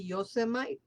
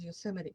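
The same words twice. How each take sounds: First: The name is sounded out as it is spelled. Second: The name is said in its usual pronunciation. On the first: The speaker calls it wrong. "I read it the way it's written, which will be Yosemite" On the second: The speaker calls it right. "but it's pronounced Yosemite"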